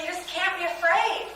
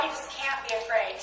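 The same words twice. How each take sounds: First: "you just can't be afraid" higher, climbing on "afraid"; rising emphasis. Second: "You just can't be afraid" softer, falling on "afraid"; falling finality. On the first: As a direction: lift "afraid" into a rising appeal. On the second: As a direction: settle "afraid" down as a closing point. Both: Real, not acted. Coach repeats advice, rising then falling.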